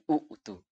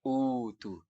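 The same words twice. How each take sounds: First: A glottal stop follows the first u. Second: The word opens with a long u vowel. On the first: This is the original form of the word. "bukan lagi" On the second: This is how the word is read. "dia ganti menjadi waw di situ supaya mudah"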